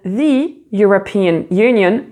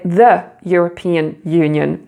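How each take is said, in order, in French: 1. 'The' utilise sa forme devant voyelle, comme 'thee'. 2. 'The' utilise sa forme ordinaire, comme 'thuh'. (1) "tu ne vas pas dire the European Union" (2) "mais the European Union"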